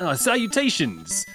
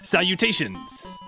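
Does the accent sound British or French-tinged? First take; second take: British; French-tinged. First: It is spoken with a British accent. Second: It is spoken with a slightly French accent. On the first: "Do a British accent" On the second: "your accent was also a little French when you did that"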